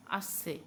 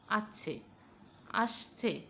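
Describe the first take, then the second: First: আসছে said as আছছে with ch; আসছে with ছ sound for স; mispronounced ch. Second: আসছে said with a clear s; teacher models আসছে with a crisp s; correct s. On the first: Acted. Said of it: "এবার বলুন আসছে". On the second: Shown as a demonstration. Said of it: "বলুন আসছে".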